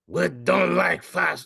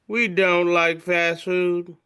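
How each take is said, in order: First: It is said in an attempted French accent. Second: It is said in the speaker's plain accent.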